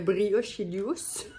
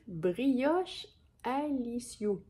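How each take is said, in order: First: Brioche runs straight into 'licius' with no 'a'. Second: An 'a' vowel is heard before 'licius'. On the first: The speaker calls it wrong. "vous devez toutes être en train de rire de moi quand je prononce le nom" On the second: The speaker calls it right. "il se prononce brioche alicius"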